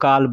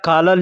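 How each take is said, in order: First: The word begins with a g sound. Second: The word begins with a k-like sound. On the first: This is how people say it in speech. "लेकिन बोलने के लिए लोग गाल बोलते हैं" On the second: This is the written form. "या काला लिखा जाएगा"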